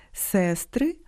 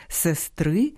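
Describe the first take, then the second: First: Сестри with stress on the first syllable, SES-try. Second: Сестри with stress on the last syllable, ses-TRY. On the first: Host shows nominative plural of sister, first-syllable stress. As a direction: punch the е at the start of Сестри. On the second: Host shows genitive singular of sister, last-syllable stress. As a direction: rise onto the final и of сестри. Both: Shown as a demonstration. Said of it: "Часом омографами стають і недалекі родичі".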